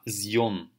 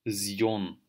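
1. Начинается с звонкого звука z. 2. Начинается с звонкого звука z.

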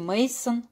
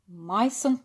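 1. Название произносится с русским произношением. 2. Название произносится с немецким произношением. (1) "как говорят в России" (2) "по-немецки"

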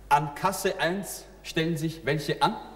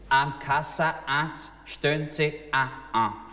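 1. Es wird in Standarddeutsch gesprochen. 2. Es wird in einem wienerischen Dialekt gesprochen.

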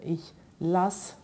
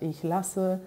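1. Das e am Ende des Verbs wird weggelassen. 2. Das e am Ende des Verbs wird ausgesprochen. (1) "wo ich das E weglasse"

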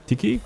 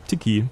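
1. Er wird schnell als ein Wort gesprochen. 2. Er wird schnell als ein Wort gesprochen.

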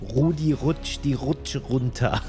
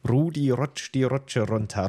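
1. Das R wird hinten im Rachen gebildet. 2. Das R wird mit der Zungenspitze gerollt. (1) "das Hochdeutsche hinten im Rachen R" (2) "Dann lernt man das R einfach so rollend"

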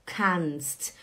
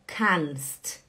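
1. É uma sílaba só, terminando em um grupo de consoantes. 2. É uma sílaba só, terminando em um grupo de consoantes.

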